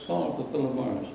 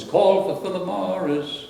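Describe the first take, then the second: First: Said in the usual way. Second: High, slow sung-out slogan call; announcing a brand slogan, called out high and slow. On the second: Retold or imitated. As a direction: call it out like the old ad, drawn out and high. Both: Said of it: "the slogan was".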